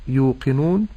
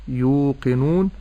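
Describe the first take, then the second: Both takes have the same delivery.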